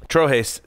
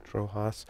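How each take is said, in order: First: "Trojes" ending in "hays"; second syllable of "Trojes" rhymes with "days"; corrected pronunciation. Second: "Trojas" ending in "hahs"; second syllable of "Trojas" with an open "ah"; uncertain mispronunciation. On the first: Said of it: "Trojes sounds better". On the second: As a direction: say "Trojas" as TRO-hahs, softly unsure. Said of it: "I was missing something in my pronunciation". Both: Real, not acted.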